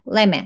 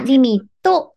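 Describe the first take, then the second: First: The final t is faint with no vowel. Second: The final t is followed by a clear vowel. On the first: The speaker calls it right. "今やったこの音ですね。薄い感じになる" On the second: The speaker calls it wrong. "リミットっていう風にT さんをとっていう有声音にしてたら"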